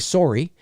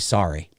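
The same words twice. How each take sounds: First: It is said in a Canadian accent. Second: It is said in an American accent.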